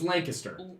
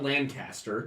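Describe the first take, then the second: First: The first syllable sounds like 'lane'. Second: The first syllable does not sound like 'lane'. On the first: The speaker calls it right. "It is Lancaster. ... Say Lane. Kister" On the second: The speaker calls it wrong. "It's not Lancaster"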